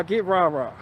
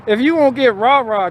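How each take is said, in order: First: Quiet repeat. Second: Said in the usual way. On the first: Real, not acted. Softly repeated rah-rah. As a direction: get rah-rah dropped soft.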